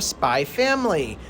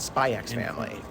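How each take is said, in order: First: The title is said without the X. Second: The title is said with the X. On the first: The speaker calls it right. "The X is silent" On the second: The speaker calls it wrong.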